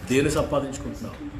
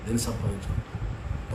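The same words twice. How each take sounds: First: Said in the usual way. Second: "దేని సంపాదించుకుంటున్నావు" dropped low and quiet; soft repeated question. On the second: Real, not acted. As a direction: lower and softer, pressing the point. ("దేని సంపాదించుకుంటున్నావు" నెమ్మదిగా, తక్కువ స్వరంలో)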